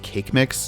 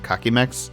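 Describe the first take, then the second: First: The name is said in two syllables. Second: The name is said in three syllables. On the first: The speaker calls it right. "Apparently his name is pronounced Cake Mix" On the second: The speaker calls it wrong. "not Kakimex"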